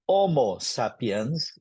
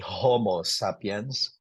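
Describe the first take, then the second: First: The initial H is barely pronounced. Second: The initial H is clearly pronounced. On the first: The speaker calls it right. "H is barely pronounced. So Homo sapiens is how you correctly pronounce" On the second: The speaker calls it wrong. "You don't say Homo sapiens if you're pronouncing it in Latin"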